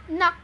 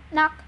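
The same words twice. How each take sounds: The two takes are said the same way.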